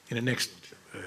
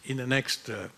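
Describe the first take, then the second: No difference in how they are said.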